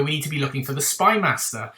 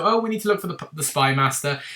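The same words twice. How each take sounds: First: Said in the usual way. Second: Breezy offhand. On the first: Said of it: "But he said it so soiree and just so". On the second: Retold or imitated. O tossing the line to the Doctor, breezy and offhand. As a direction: toss it off like it means nothing. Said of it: "he said it so soiree and just so".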